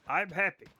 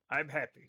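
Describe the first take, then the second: First: Said in the usual way. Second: Lower, quieter flat-sounding happy; deadpan. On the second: Shown as a demonstration. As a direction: say I'm happy with no joy at all. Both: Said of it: "everything's fine".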